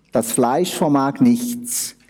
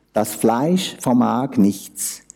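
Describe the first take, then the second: No difference in how they are said.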